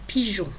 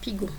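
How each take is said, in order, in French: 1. Le g est doux, comme le s de measure. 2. Le g est dur, comme le g de go. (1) "Je répète, un pigeon" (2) "pour ne pas faire pigon"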